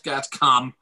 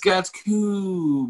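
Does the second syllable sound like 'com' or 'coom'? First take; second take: com; coom. First: The second syllable has a short 'o' vowel. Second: The second syllable has a long 'oo' vowel. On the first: The speaker calls it wrong. "not Gatcom" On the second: The speaker calls it right. "It's Gatcoom"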